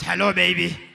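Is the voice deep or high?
deep. It is said in a deep baritone voice.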